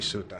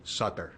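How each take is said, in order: First: The name is said the Swiss way. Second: The name is said the American way.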